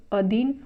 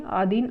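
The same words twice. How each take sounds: First: अधीन with short opening a; correct form. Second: आधीन with long opening aa; incorrect form. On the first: Teacher correcting the error, अधीन opening on short a. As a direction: say अधीन as a-dheen. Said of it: "अधीन होता है शुद्ध". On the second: Teacher showing the error, आधीन opening on long aa. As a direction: say आधीन as aa-dheen. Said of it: "आधीन अशुद्ध है". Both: Shown as a demonstration.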